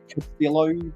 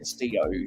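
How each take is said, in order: First: The name is said with English pronunciation. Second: The name is said with Spanish pronunciation. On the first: The speaker calls it wrong. "I heard a lot of people pronounce it as" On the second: The speaker calls it right. "she is of Spanish descent, so it's"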